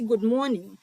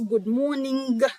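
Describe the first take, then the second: First: The final g sound is pronounced lightly. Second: The final g sound is pronounced strongly. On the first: The speaker calls it right. "Son G a là, li just léger" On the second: The speaker calls it wrong. "Nous just pas dire trop fort. Ou pas dit good morning"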